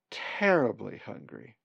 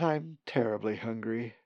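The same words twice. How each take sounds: First: TERRIBLY drawn out slowly, with extra punch; stress on TERRIBLY. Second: Said in the usual way. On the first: Acted. Hungry bird begs Colin for meat, stress on TERRIBLY. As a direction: lean slowly on the word "terribly". Pleading bird repeats itself for emphasis.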